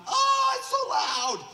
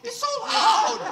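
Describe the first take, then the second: First: High, loud cry of shock; overwhelmed yell at the sudden loudness; startled shout. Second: Slow, loud, laughing disbelief; stunned laughing repeat; laughing shout. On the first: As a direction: shout it like sound just flooded back. Healed lady's hearing returns. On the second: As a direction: shout it again through a laugh. Healed lady repeats, laughing. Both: Retold or imitated.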